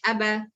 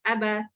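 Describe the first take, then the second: No difference in how they are said.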